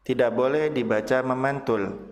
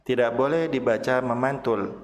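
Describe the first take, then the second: No difference in how they are said.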